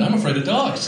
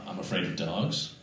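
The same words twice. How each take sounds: First: Higher, insistent declaration; emphatic admission. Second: Low, quiet, hesitant confession; reluctant admission. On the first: Comic repeating his fear to the crowd, emphatic. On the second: Comic confessing a fear to the crowd, reluctant and quiet. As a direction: admit it softly, with difficulty. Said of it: "I have trouble even now admitting things". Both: Pretend.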